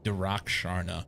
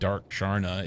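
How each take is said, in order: First: The first part is said as two syllables. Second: The first part is said as one syllable. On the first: The speaker calls it right. "that's closer anyway. It's not dark" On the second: The speaker calls it wrong. "I mis mispronounced your name earlier. I said Dark Sharna"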